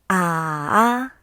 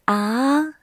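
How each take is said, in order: First: The pitch dips low, then rises. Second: The pitch rises from middle to high. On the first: "This tone goes down first and then rises" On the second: "The second one is a rising tone"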